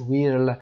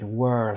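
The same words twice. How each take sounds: First: Whirl said as "wirl" with an ee sound, the wrong way. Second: Whirl said as "werl", vowel like er; correct whirl. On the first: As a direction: show the mistaken reading of whirl with ee. (whirl را اشتباه با صدای «ای» بخوانید) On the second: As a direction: say whirl with an er sound, not ee. (whirl را با صدای «ر» مثل er بخوانید) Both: Shown as a demonstration.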